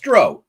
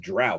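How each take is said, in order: First: The vowel rhymes with 'row' as in boat. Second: The vowel does not rhyme with 'row' (boat). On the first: The speaker calls it right. "O W, like row the boat" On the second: The speaker calls it wrong. "Everybody says drow. Bullshit"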